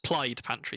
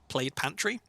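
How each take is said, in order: First: Plaid is pronounced the Welsh way. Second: Plaid is pronounced the ordinary English way.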